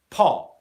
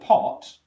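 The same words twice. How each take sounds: First: The final T is cut off in the throat. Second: The final T is clearly formed and released. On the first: "they won't even go into the position of the T sound and they'll stop the airflow down here" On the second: "If I say the word pot"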